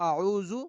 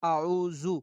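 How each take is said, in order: First: The middle consonant sounds like a buzzing z. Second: The same.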